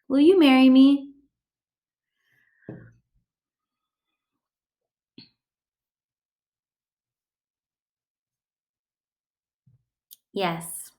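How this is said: A long pause comes before a flat yes.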